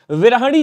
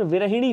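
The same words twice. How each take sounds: First: विरहिणी as "virahani"; wrong middle vowel. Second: विरहिणी as "virahini"; correct middle vowel. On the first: Teacher showing students the error, विरहिणी as "virahani". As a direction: say विरहिणी with a after h. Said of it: "जैसा कोई शब्द नहीं होता". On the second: Teacher correcting students, विरहिणी as "virahini". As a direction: put i after h in विरहिणी. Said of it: "होता है". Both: Shown as a demonstration.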